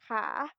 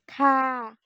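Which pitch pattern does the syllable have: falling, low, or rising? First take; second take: rising; falling. First: The pitch rises on the syllable. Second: The pitch falls on the syllable. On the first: "вищий клас у нас є висхідним тоном, значить це в нас читається висхідним тоном" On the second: "додати спадний тон"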